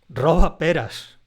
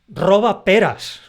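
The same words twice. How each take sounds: First: It is said with two separate stresses. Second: It is said with two separate stresses.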